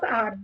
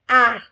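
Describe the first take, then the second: First: The letter is said the English way. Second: The letter is said the French way. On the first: The speaker calls it wrong. "Instead of R" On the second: The speaker calls it right. "In French, we never say R. Instead of R, we say R"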